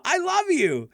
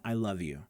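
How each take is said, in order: First: Very high, loud, silly declaration; over-the-top goofy affection; friendly, goofy. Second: Low, soft, understated sincerity; simple, sincere. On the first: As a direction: belt it out playfully, way up high. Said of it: "friendly, goofy kind of way". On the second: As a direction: say it quietly, nothing over the top. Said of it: "They're very simple". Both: Shown as a demonstration.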